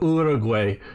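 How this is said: The name is said with a non-American pronunciation. "the maybe more correct pronunciation"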